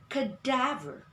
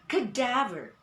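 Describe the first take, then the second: No difference in how they are said.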